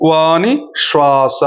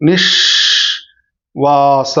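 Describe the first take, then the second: First: Slow, with a half-second gap between Vani and శ్వాస; pause between words. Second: నిశ్వాస stretched very slowly as one word, నిష్ leaning on శ్వాస; one long unbroken నిశ్వాస; joined, drawn out. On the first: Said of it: "ఒక అర second అట్లా ఆగుతాం". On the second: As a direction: glide నిశ్వాస together slowly without a break. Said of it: "ఇట్లా పలుకుతాం". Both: Shown as a demonstration.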